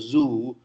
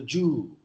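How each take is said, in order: First: The word starts with a buzzing z sound. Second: The word starts with a j sound. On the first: The speaker calls it right. "Telugus can't go to the zoo" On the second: The speaker calls it wrong.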